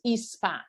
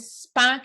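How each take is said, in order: First: The word begins with a short vowel sound. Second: The word begins directly with an s sound.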